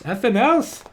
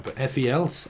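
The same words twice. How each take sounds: First: "effing else" flung out higher and louder, teasing; playful punchline. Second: Said in the usual way. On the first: Shown as a demonstration. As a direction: toss off "effing else" like a cheeky correction.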